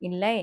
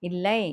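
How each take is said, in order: The two takes are said the same way.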